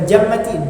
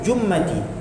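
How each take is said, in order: First: The first vowel is an open 'a' sound. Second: The first vowel is a rounded 'u' sound. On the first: "bukan jammati" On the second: "jim tu dibaca dengan dhamma"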